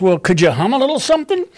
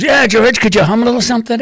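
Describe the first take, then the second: First: Said in the usual way. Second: Higher, louder, fast teasing copy of a famous singer. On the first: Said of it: "And then she goes". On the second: Retold or imitated. [name] teasing [name] by quickly echoing the question higher and louder. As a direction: rattle the question back quickly in a raised mocking voice. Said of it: "Like [name], right?".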